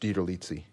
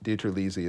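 First: The middle syllable sounds like 'leet', with a t. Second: The middle syllable sounds like 'lee', with no t. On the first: This is the original Italian pronunciation. "But it's DiTerlizzi" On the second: This is the family's own everyday pronunciation. "DiTerlizzi is what I grew up with. So the leet was gone. It was just Lee"

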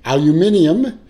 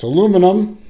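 First: The word is said with five syllables. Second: The word is said with four syllables. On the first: This is how Europeans say it. The speaker calls it wrong. "or as you Euros say" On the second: This is how Americans say it. The speaker calls it right. "It's aluminum"

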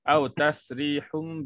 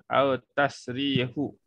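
First: The word ends with a held m sound. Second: The word ends with no nasal sound. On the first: The speaker calls it right. "Kena baca au tasrihum bi ihsan" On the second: The speaker calls it wrong. "ataupun au tasrihu pun tak boleh lah"

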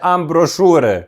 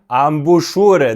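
First: The word is said with an r sound. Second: The word is said without an r sound. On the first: The speaker calls it wrong. "не амброшури" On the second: The speaker calls it right. "Амбушури, не амброшури"

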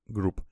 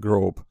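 First: It is said with a vowel like 'group'. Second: It is said with a vowel like 'grope'. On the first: The speaker calls it right. "оно читается как group" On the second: The speaker calls it wrong. "я произношу как group ... Group — это ближе к глаголу домогаться"

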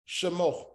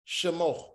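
The two takes are said the same way.

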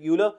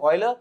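First: The name is said the common Indian way. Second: The name is said in its standard pronunciation. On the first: "in India we call it Euler" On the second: "the correct pronunciation is Euler"

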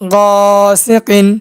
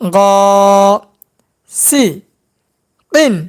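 First: The syllables are joined into one smooth word. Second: The syllables are said separately with breaks. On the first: "একসঙ্গে উচ্চারণ করব" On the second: "ভাঙ্গা ভাঙ্গা উচ্চারণ"

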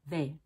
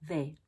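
First: The vowel is a full, clear long A. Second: The vowel is a full, clear long A.

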